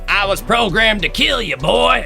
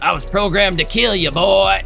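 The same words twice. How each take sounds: First: The put-on voice is heavily overdone. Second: The put-on voice is toned down.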